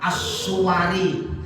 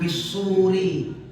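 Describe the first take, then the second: First: A u follows the s, then w and a. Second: A short u follows the s, with no w. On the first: "boleh dibaca as-suwari, wawunya fathah" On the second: "shad wawu ra, shadnya dhamma"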